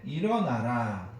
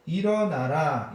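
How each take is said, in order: First: "일어나라" drawn out slowly and falling at the end; slow solemn command. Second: "일어나라" louder and slow, falling firmly at the end; emphatic command. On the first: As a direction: read God's word slowly and gravely. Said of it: "이르시되". (천천히 엄숙하게 "일어나라") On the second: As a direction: call it out to lift them up. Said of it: "이렇게 이야기합니다". (크고 천천히 힘주어 "일어나라") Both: Retold or imitated.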